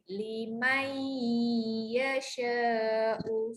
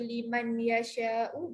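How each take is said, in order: First: The n merges into the following y sound. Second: The n is pronounced clearly before the y. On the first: The speaker calls it right. "Mesti ada bunyi lain" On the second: The speaker calls it wrong. "Bunyi dia tak cantik lah"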